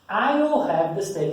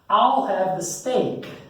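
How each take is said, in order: First: I will is said as two full words. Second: I will is shortened to one syllable, I'll. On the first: "you can say I will, but usually don't say I will" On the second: "You say I'll"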